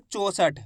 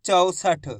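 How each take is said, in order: First: चौसठ misread with a pure "o", as "cho-sath"; wrong o vowel. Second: चौसठ as "chau-sath", gliding au in the first syllable; correct au vowel. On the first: Teacher warns learners off reading चौसठ as "cho-sath", o vowel. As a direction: swap the au in चौसठ for a plain o. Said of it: "ऐसे नहीं पढ़ना". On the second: Teacher corrects the misreading, चौसठ with an au sound. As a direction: give चौसठ its full au. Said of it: "औ करके उच्चारण निकालना है". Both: Shown as a demonstration.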